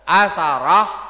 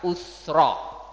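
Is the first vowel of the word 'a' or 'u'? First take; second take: a; u. First: The first vowel is a, with a second vowel. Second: The first vowel is u, with no second vowel. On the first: "dibaca dengan menfathah hamzah dan tha" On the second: "dibaca dengan mendhammah hamzahnya dan mensukun tha-nya"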